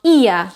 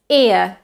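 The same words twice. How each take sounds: First: "ear" starting on a long ee; wrong tense start. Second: "ear" starting on short ih, into uh; lax-start diphthong. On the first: Teacher showing the ear to avoid, tense start. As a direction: say "ear" as ee-ah, as the mistake. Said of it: "It's not ear". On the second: Teacher correcting ear for learners, lax-start diphthong. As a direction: say "ear" as ih-uh in one glide. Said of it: "starts with an I". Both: Shown as a demonstration.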